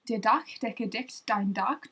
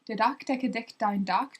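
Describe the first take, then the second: First: It is said at a slower pace. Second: It is said at a faster pace.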